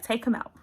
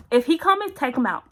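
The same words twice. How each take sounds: First: Said in the usual way. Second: Sharp, high and louder command; urgent panicked order. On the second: Retold or imitated. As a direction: bark it out like a frantic plea in pain. Panicked in labour, urging husband.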